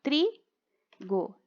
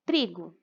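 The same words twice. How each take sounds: First: Trigo split into tri, go; two separate beats for trigo with a gap between; syllable by syllable. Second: Said in the usual way. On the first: Shown as a demonstration. Teacher showing two syllables, trigo pulled apart at the break. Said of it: "Trigo já tem duas sílabas". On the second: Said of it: "a separação das sílabas".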